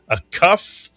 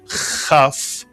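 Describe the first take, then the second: First: The word starts with a hard k sound. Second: The word starts with a throaty ch sound. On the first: The letter has a dot inside it. "With a dagesh, it is pronounced as a K" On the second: The letter has no dot inside it. "Without a dagesh, the kaf is pronounced as a chaf, slight clearing of the throat"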